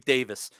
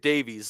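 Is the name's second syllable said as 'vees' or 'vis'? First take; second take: vis; vees. First: The name ends with a 'vis' sound. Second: The name ends with a 'vees' sound. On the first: The name is said as if it had no e. The speaker calls it wrong. "take the fucking e out of your name, and then you can be Davis" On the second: The spelling with an e is read out in full. The speaker calls it right. "I'm pronouncing it Davies"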